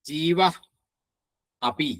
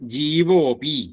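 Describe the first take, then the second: First: The two words are said separately. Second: The words merge, the vowel a dropped.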